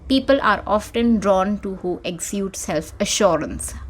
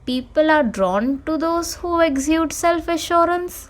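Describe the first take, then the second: First: The voice falls at the end like a statement. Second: The voice rises at the end like a question. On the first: The speaker is sure of what they say. The speaker calls it right. "with the uh, intention of a period" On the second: The speaker sounds unsure of what they say. The speaker calls it wrong.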